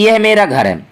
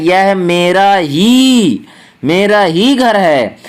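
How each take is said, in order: First: Said in the usual way. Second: Slow down and hit the word "ही" each time; stress on ही. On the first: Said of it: "लेकिन हम यहाँ कह रहे हैं". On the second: Shown as a demonstration. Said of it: "ये जो ही शब्द है ये निपात शब्द है".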